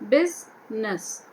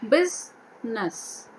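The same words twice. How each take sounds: The two takes are said the same way.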